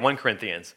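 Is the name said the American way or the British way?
British. It is said the way British speakers say it. "they say 1 Corinthians"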